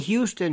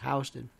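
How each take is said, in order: First: It is said in a way not used in New York. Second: It is said the way New Yorkers say it. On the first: This is how it is said outside New York. The speaker calls it wrong. "Never say Houston here" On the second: This is how it is said in New York. The speaker calls it right. "in New York, it's Houston"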